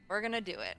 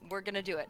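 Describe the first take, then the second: First: It is said with energy and conviction. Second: It is said flatly, without much energy. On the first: The speaker believes it. The speaker calls it right. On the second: The speaker does not really believe it. The speaker calls it wrong.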